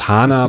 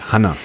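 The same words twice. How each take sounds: First: It does not sound like the name Hannah. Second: It sounds like the personal name Hannah. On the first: This is how the name is usually said. "not HANA" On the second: This is how someone else said it. "but HANA. And it was like Hannah"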